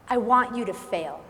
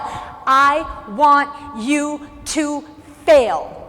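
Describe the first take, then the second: First: It is said with ordinary, moderate confidence. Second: It is said with strong, heightened confidence.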